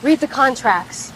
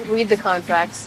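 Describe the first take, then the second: First: Slow, each word weighted; slow emphatic advice. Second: Quieter, deliberate, "the" leaned on; softer slow repeat. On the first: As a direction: stress READ, deliberately slow. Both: Shown as a demonstration.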